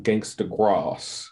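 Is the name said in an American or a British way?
British. The name is said in a British way. The speaker calls it wrong. "that's the way Simon sort of pronounced it"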